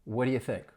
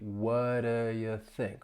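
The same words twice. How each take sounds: First: The phrase is said quickly. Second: The phrase is said slowly. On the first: "if I were saying this quickly" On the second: "Let me say it slowly"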